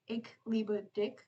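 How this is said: The ch sound is a hard k. "pronounced as k instead of or sh"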